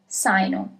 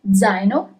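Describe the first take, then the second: First: The word begins with an s sound. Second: The word begins with a z sound. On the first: The speaker calls it wrong. "If there was an S at the beginning" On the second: The speaker calls it right. "as we have a letter Z in the beginning"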